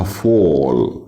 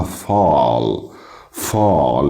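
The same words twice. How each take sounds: First: فول with a long "aw"; British rounded vowel. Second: فال with a long open "ah"; American open vowel. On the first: Teacher modelling British فول, rounded "aw". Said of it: "بالبريش بنقولها فول". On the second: Teacher modelling American فال, long open "ah". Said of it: "بالامريكان مفتوحة فال". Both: Shown as a demonstration.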